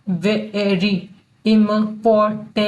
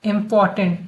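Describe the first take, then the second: First: Important very slowly, broken into pieces; im-por-tant, syllable by syllable with gaps; sounding out. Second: Said in the usual way. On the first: Shown as a demonstration. Teacher breaking important up for learners, very slow.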